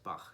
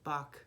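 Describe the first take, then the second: First: The name ends with a throaty ch sound. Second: The name ends with a hard k sound. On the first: The speaker calls it right. "Bach is the appropriate way to pronounce his name" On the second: The speaker calls it wrong. "a lot of people say Bach. that's not right"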